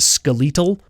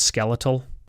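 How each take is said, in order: First: The word is said the Canadian way. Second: The word is said the non-Canadian way. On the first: "everybody in Canada says that word as skeletal" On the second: "Everywhere else on the planet, I'm sure it's skeletal"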